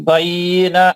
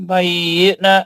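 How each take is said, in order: No difference in how they are said.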